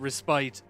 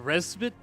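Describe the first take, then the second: First: The last syllable rhymes with "spite." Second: The last syllable sounds like "pit." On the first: "I've always pronounced it respite" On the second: "but apparently it's respite"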